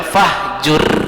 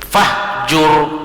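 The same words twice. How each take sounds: First: The r is pronounced light and thin. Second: The r is pronounced heavy, filling the mouth. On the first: The speaker calls it wrong. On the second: The speaker calls it right.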